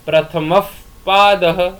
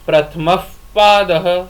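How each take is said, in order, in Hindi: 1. p से पहले का h अर्ध विसर्ग है। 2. p से पहले का h अर्ध विसर्ग है।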